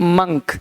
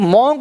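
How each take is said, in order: First: The vowel sounds like 'u' in 'un'. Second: The vowel sounds like 'o' in 'on'. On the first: The speaker calls it right. "क्या पढ़ना है, मंक" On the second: The speaker calls it wrong. "ये मॉन्क नहीं"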